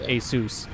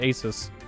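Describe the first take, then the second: First: The second syllable sounds like 'Zeus'. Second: The second syllable sounds like 'sus'. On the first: The speaker calls it right. "but it's actually pronounced Asus" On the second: The speaker calls it wrong. "I always read it as Asus"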